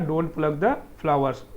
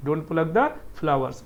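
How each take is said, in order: First: Slow, careful model sentence; slow model reading. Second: Slow repeat of the model sentence; slow model reading. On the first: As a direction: say it slowly word by word for the class. (धीमे-धीमे साफ़ बोलकर) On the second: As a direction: repeat it just as slowly for students to copy. (धीमे-धीमे दोहराकर) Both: Shown as a demonstration. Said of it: "ऐसे ही repeat करिएगा".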